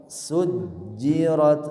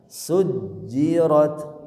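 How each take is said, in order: Both takes have the same delivery.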